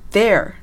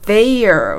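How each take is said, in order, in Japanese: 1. 'ee'の滑音は落ちて、'there'のように聞こえます。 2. 母音は完全な'ay'の滑音を保ちます。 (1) "there になります" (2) "ネイティブはthey のイの音を省略して発音することがあるからなんですね"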